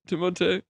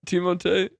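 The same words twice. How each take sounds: No difference in how they are said.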